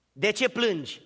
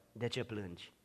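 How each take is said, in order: First: Said in the usual way. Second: Much softer, lower „De ce plângi?”; hushed question. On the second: Acted. Jesus to the weeping one, hushed. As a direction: ask it gently, barely voiced.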